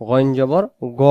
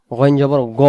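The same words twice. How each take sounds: The two takes are said the same way.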